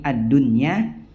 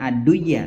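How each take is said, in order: First: The n sound is clearly pronounced before the y. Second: The n sound is merged into the following y. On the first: The speaker calls it right. "tapi adunya ... tetap dibaca idhar" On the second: The speaker calls it wrong. "bukan aduya"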